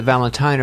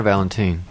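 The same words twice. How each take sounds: First: "Valentine" ending like "twine"; "Valentine" pronounced VAL-en-tyne; ending rhymes with "tine". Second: Put-on "Valentine" ending like "teen"; "Valentine" pronounced VAL-en-teen; ending rhymes with "teen". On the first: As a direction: say "Valentine" with a long-i last syllable, VAL-en-tyne. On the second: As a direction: say "Valentine" with a long-e last syllable, VAL-en-teen. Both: Shown as a demonstration. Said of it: "is it Valentine or Valentine".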